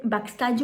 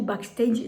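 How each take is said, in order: First: "Backstage" with an ah in the last syllable; French-style pronunciation. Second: "Backstage" with an ay sound, bak-STAYZH; English-style pronunciation. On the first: Vlogger trying out the Dior palette's name, "Backstage" Frenchified with ah. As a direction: say "Backstage" the French way, bak-STAHDJ. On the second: Vlogger correcting herself on the palette's name, "Backstage" anglicised with ay. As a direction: say "Backstage" closer to English, last syllable as "stayj". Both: Real, not acted. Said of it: "Désolée pour la prononciation".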